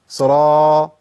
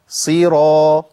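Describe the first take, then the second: First: The first vowel is weak and barely sounded. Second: The first vowel is a clear, full i sound. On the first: The speaker calls it wrong. "ما قولش صرا صرا، ما ينفعش" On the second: The speaker calls it right. "اسقط الفك وبعد كده اعمل انفتاح"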